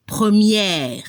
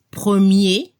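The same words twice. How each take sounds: First: PREMIÈRE with open è and sounded r; open final e. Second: PREMIER ending on é, silent r; final closed é. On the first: French teacher demonstrating the feminine, PREMIÈRE with open è. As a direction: open the mouth on PREMIÈRE, then let the r be heard. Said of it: "hay que abrir la boca". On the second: French teacher demonstrating the masculine, PREMIER ending in é. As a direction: finish PREMIER on a closed e, dropping the r. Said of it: "se escucha el sonido E al final". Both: Shown as a demonstration.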